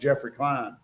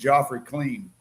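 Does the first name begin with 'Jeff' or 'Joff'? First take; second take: Jeff; Joff. First: The name is said as '[name]'. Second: The name is said as 'Joffrey Clean'. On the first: This is the speaker's real name. The speaker calls it right. "My name is" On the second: Someone else mispronounced the name. The speaker calls it wrong. "she was saying"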